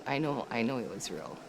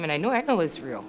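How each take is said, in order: First: The same words again, softer and lower; quietly convincing herself it was real; hushed, inward repeat. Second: Said in the usual way. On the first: Real, not acted.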